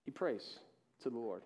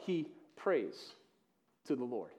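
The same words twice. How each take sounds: First: Much softer, lower echo; hushed repeat. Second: Softly, lower, letting it sink in; soft emphasis. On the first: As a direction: drop almost to a hush on the repeat. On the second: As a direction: say it quietly and lower. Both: Shown as a demonstration.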